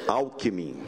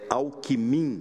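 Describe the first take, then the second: First: The stress is on the first syllable. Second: The stress is on the last syllable. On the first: This stress pattern would not win elections in Minas Gerais. The speaker calls it wrong. "não é Alckmin" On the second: This stress pattern would win elections in Minas Gerais. The speaker calls it right. "tem que ser oxítona"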